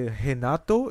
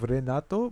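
First: The first R sounds like an H. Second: The first R sounds like an R. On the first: This is the way Brazilians say it. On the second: This is the way others say it.

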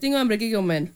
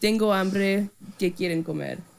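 First: It imitates her dad's speed and cadence. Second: It is said in her own way.

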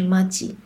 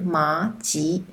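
First: It uses the everyday spoken tones of the word. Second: It uses the standard tones of the written word. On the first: This is how people usually say it in speech. "可是口语里面常常你会听到有人说他们两个是麻吉" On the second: This is how the word is pronounced when typed. "如果你打字的话，它的发音应该是麻吉"

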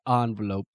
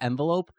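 First: It is said in a snooty, affected way. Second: It is said in an everyday, unaffected way. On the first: The speaker wants to sound posh. "if I want to be like snooty, I'll be like envelope" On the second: This is the usual way of saying it. "Usually it's envelope"

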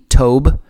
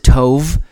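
First: The word ends with a B sound. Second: The word ends with a V sound. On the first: "it says the pronunciation is T-O-B-E" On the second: "I've heard other people spell it and pronounce it Tov"

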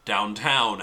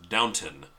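First: The second syllable sounds like 'town'. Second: The second syllable sounds like 'ton'. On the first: The speaker calls it wrong. "not Downtown Abbey" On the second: The speaker calls it right. "It's Downton"

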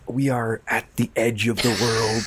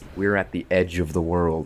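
First: It is said in a put-on narrator accent. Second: It is said in the speaker's natural voice. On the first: "did the narration in his voice with accent" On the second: "took the voice out"

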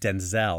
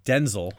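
First: The stress is on the second syllable. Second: The stress is on the first syllable. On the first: This is the American way of saying the name. "we put the emphasis on the second syllable" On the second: This is the British way of saying the name. "the Brits call him Denzel"

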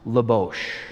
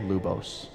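First: The name ends with an "sh" sound. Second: The name ends with an "s" sound. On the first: It is the original Slavic pronunciation. "properly pronounced Lubosh" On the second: It is an easy phonetic reading for English speakers. "we decided to pronounce it the easy way so that everyone who saw it could read it and pronounce it phonetically"

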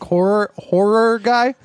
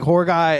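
First: The word ends with a full second syllable. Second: The word is clipped, sounding like 'whore'. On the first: The speaker calls it right. "pronounce your O-R a little bit more at the end" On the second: The speaker calls it wrong. "it sounded more like"

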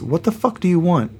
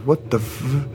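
First: It is said in an angry, commanding tone. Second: It is said in a frightened whimper.

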